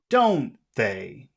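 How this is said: It sounds confident, with pitch going high to low. The speaker is sure and expects agreement. The speaker calls it right. "how do you sound confident"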